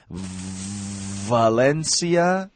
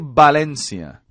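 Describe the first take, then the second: First: The word begins with a V sound. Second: The word begins with a B sound. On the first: The speaker calls it right. "Valencia, V" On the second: The speaker calls it wrong. "We do not say Valencia"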